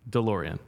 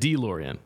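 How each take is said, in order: First: The first syllable has a reduced 'duh' vowel. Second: The first syllable has a full 'dee' vowel. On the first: The speaker calls it right. "and it's duh" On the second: The speaker calls it wrong. "So I said D"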